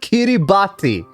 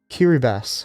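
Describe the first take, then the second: First: The letters 'ti' are said with a T sound. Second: The letters 'ti' are said with an S sound. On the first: The speaker calls it wrong. "You pronounced it wrong?" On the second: The speaker calls it right. "The T makes an S sound"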